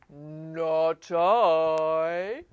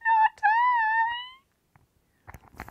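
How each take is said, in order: First: It is said in a low voice. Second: It is said in a high voice.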